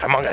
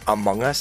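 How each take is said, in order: First: The words are slurred together into one. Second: The words are said clearly and fully. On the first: "somebody just slurred it a little bit" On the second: "instead of saying Among Us"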